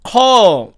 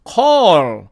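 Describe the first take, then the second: First: The final L is cut short. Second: The final L is fully pronounced. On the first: "원어민들은 call, call 이렇게 하고 끝냅니다" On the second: "사전식 발음으로 하면은"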